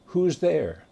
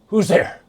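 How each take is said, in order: First: It sounds calm and ordinary. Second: It sounds afraid and worried.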